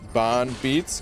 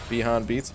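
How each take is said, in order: First: The first word is squeezed into one syllable. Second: The first word is said with two syllables. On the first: "Is that first part just kind of one word" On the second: "or Beyond Beats?"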